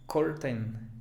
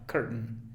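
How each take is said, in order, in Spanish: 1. Todas las vocales se pronuncian plenamente. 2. La segunda vocal se reduce a un schwa. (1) "Algún estudiante básico diría curtain" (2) "y luego n, una schwa"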